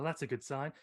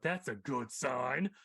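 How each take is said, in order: First: It is said flatly with little inflection. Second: It is said with exaggerated, sarcastic inflection. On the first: The speaker calls it wrong. "That's what it sounded like" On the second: The speaker calls it right. "Where really you have to go"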